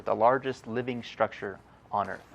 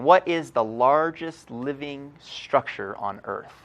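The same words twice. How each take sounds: First: Said in the usual way. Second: Slow, louder read of "what is the largest living structure on Earth?" with weight on "what"; slow emphatic question. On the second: Acted. Intern announcing the trivia question, slow and emphatic.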